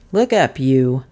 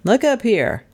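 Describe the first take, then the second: First: Gruffly muttered command, pitch dropping; muttered order. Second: Higher-pitched sharp order; commanding. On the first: Detective jerking the stranger's head, muttering his order. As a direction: grumble the order at him. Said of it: "muttered the detective". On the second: Detective commands the dazed stranger, sharply raised pitch. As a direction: order him to raise his head. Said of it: "he commanded". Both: A narrator's reading.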